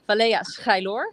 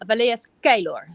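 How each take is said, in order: First: The name is said with a Dutch pronunciation. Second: The name is said with a Romanian pronunciation. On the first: "how I would describe the name in the Netherlands" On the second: "when I do it in Romania"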